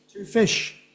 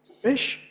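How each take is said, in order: First: Two fish with full two; two said full and stressed; strong two. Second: To fish with weak to; unstressed schwa to before fish. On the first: Teacher contrasting full two with weak to. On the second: Teacher contrasting weak to with two. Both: Shown as a demonstration. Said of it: "not the same".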